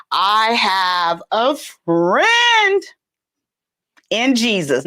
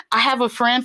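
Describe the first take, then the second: First: Very slow, every word stretched; mock proclamation. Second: Said in the usual way. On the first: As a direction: draw out "friend" as a grand announcement.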